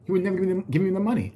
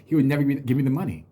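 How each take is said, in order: First: "never" and "money" pushed up, higher pitch on the repeat; emphatic repeat higher. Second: Said in the usual way. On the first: Real, not acted. Telling viewers how his brother withheld money, emphatic higher repeat. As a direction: hammer the complaint home, higher.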